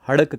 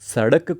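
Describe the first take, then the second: First: The word begins with an h sound. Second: The word begins with an s sound. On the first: "Marwari में हड़क कहने लगे" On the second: "स का उच्चारण कई जगह पर है की तरह हो जाता है"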